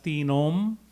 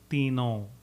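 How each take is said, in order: First: The word ends with a full m sound. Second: The word ends with a nasalized vowel. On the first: The speaker calls it wrong. "instead of mentioning it as tinom" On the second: The speaker calls it right. "we will make the no nasal"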